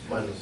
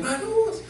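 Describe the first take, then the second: First: Said in the usual way. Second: Much higher sung-out call of Manus; dad calling his son on the field, high call. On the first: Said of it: "me decían Manus". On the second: Retold or imitated. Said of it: "Entonces me decían".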